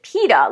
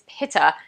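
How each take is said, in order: First: It sounds like the pita of pita bread. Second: It does not sound like pita bread. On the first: The speaker calls it wrong. "a lot of my students will pronounce it pita, like pita bread" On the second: The speaker calls it right. "It's not like pita bread. It's Pitta"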